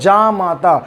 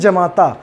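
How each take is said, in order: First: The first vowel is long. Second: The first vowel is short. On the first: The speaker calls it right. "इसको हिंदी में शुद्ध रूप से कहा जाता है जामाता" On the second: The speaker calls it wrong. "लोग छोटा जा बनाते गलत हो जाएगा"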